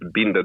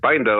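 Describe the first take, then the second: First: It sounds different from the English word binder. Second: It sounds like the English word binder. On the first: This is how the name is actually said. The speaker calls it right. "That's the, the correct pronunciation" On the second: This is how the spelling reads. The speaker calls it wrong. "like binder, like when you read it"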